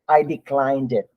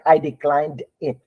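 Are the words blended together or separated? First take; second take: blended; separated. First: The words run together without breaks. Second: Each word is cut off from the next. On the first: The speaker calls it right. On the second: The speaker calls it wrong.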